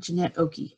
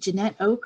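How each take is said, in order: First: The surname is said as two syllables. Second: The surname is said as one syllable. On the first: "I've heard it both ways" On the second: "I never know how to pronounce"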